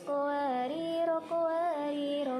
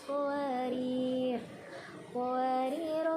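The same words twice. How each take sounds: First: Both words run on short with no stop. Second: Stops after the first word, lengthening its final vowel. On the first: "mewasolkan atau membaca tanpa ada jeda" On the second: "mewakofkan pada ro yang pertama. Maka ro yang pertama ini dibaca dengan panjang"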